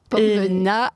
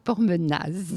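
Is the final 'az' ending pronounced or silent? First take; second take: silent; pronounced. First: The name ends on a plain 'a' sound. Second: The name ends with an audible 'az' sound. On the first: The speaker calls it right. "on ne prononce pas le az" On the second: The speaker calls it wrong. "et pas Pormenaz"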